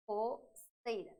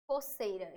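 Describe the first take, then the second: First: Coceira drawn out slowly, each syllable clear. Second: Said in the usual way. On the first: Shown as a demonstration. Teacher sounding out coceira slowly for the class. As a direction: spell out coceira slowly for the students. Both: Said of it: "eu digo".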